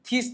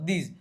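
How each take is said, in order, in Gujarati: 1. તે સ્વરહીન 'th' અવાજથી શરૂ થાય છે. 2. તે સ્વરયુક્ત 'th' અવાજથી શરૂ થાય છે. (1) "થીસ નથી થતો" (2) "આનો ધીસ જ ઉપયોગ થાય"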